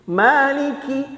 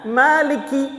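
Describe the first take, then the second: No difference in how they are said.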